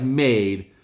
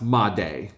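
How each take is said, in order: First: Made as one syllable, "mayd"; as spelled. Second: Made in two syllables, "mah-DAY"; Spanish-style pronunciation. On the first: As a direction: say Made like the English word "made". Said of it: "his last name looks like Made". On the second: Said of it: "I'm pretty sure it's pronounced Made". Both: Shown as a demonstration.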